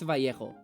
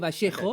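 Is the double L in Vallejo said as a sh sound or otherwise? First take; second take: other; sh. First: The double L does not sound like sh. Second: The double L sounds like sh. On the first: This is how most Spanish speakers say it. "most Spanish speakers use Vallejo" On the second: This is how the speaker's own region says it. "We pronounce it like a sh, so I say Vallejo"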